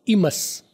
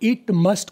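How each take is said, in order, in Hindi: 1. t की आवाज़ें छोड़ दी जाती हैं। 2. t की आवाज़ें साफ़ बोली जाती हैं।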